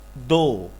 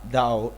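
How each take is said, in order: First: The vowel is a steady pure 'o'. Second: The vowel glides like 'ow'. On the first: The speaker calls it right. "It's do" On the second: The speaker calls it wrong. "you will pronounce like dow. Okay, but it's not"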